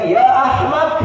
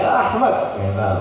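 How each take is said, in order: First: Mock angry insult. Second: Said in the usual way. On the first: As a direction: spit out the insult in mock anger. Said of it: "itu marah gitu". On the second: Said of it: "ahmak dipanggil".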